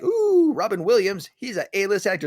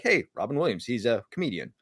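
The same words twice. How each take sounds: First: A high, gushing "Ooh" that squeals up, then fan talk; mock starstruck. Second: A shrug of a line, dropping softer to the end; offhand. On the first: Fan gushing over a star, high mock awe. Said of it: "it's not like". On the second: Retold or imitated. People shrugging off a comedian, offhand and soft. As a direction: say it like it's nothing special. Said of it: "It's like".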